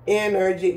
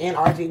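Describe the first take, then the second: First: "Energy" said as one ordinary word, EN-er-gy; correct pronunciation. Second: "N R G" spelled out letter by letter, en-ar-gee; mock people reading "N R G" as three letters; imitating wrong pronunciation. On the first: Shown as a demonstration. Vlogger showing followers the right way to say "Energy". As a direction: say "Energy" properly as a word, not letters. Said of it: "that's how they say it". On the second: Vlogger mocking people who say the brand letter by letter. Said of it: "Some people be like".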